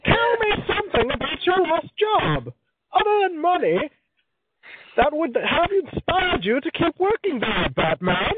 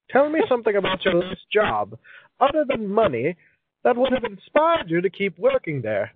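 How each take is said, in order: First: Very high, slow villain impression; Bane. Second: Put-on high-pitched, theatrical old-timey reading. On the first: Villain interrogating Batman about a last job, high, slow and theatrical. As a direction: draw it out as a grandly theatrical, high-pitched masked villain. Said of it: "That was kind of Bane-ish from Batman". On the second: Host reading a question card in a high old-timey voice. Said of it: "read this in an old-timey voice".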